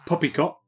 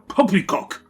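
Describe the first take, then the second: First: It is said in a plain, ordinary voice. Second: It is said with blustery British pomp.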